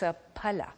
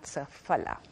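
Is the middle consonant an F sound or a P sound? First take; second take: P sound; F sound. First: The middle consonant is a P sound. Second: The middle consonant is an F sound. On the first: The speaker calls it right. "That F is actually pronounced P. So it's safala" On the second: The speaker calls it wrong. "not safala"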